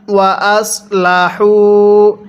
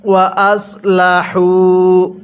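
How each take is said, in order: First: ওয়া আসলাহু with a soft sad s, not sin; slow recited ওয়া আসলাহু; soft sad sound. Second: ওয়া আসলাহু slowly with the heavy sad s; careful tajweed ওয়া আসলাহু; correct sad sound. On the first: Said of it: "এখানে আমরা এটাকে সৎ পড়ব". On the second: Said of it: "তাহলে কিভাবে পড়তে হবে?". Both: Shown as a demonstration.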